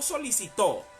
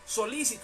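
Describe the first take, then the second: First: The stress falls on the last syllable. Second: The stress falls on the second syllable. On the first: The speaker calls it wrong. "no solicitó" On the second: The speaker calls it right. "sino solícito con acento en la i"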